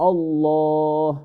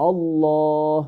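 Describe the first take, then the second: Both takes have the same delivery.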